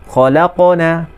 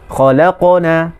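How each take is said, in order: Both takes have the same delivery.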